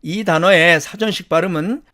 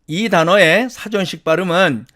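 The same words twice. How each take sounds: The two takes are said the same way.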